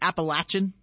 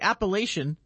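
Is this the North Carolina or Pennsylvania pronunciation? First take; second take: North Carolina; Pennsylvania. First: It is said the North Carolina way. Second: It is said the Pennsylvania way.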